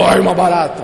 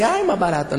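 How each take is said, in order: First: Loud, full-force cockroach yell; mock scream. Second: Said in the usual way. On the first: Shown as a demonstration. Preacher shows congregation how they really screamed, loud mock yell. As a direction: bellow it in exaggerated alarm. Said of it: "Você gritou". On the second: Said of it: "Você não gritou assim".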